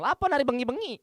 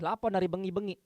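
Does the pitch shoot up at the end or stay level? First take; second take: shoots up; level. First: The pitch goes high and shrill at the end. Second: The pitch stays level through the end. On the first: The speaker calls it wrong. "Ternyata melengking suara aku tuh di belakang" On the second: The speaker calls it right. "tapi gini"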